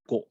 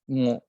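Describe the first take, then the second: First: The consonant is a plain hard g sound. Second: The consonant is a nasal ng sound. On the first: This is the newer habit of young speakers. "they will use just go" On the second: This is the traditional pronunciation. "you should read it with a nasal sound"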